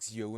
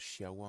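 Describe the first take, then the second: First: The word begins with a 'ks' sound. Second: The word begins with an 'sh' sound. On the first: The speaker calls it wrong. "tu vas lire un truc, tu fais par exemple" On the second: The speaker calls it right. "les X, en fait, c'est prononcé che"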